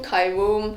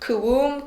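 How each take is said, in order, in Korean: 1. 첫 음절은 'kai'처럼 들려요. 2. 첫 음절은 'kuh'처럼 들려요. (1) "어떤 방송에서는 카이움이라고 하더라고요" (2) "키움을 크움이라고 하죠"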